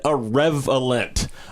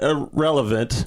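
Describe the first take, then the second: First: The word is said in a garbled, mangled form. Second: The word is said in its ordinary standard form. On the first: It is a word that does not exist. "a word that does not fucking exist" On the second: It means the people are pointless. "not irrelevant, which would be saying Moolah and May are pointless"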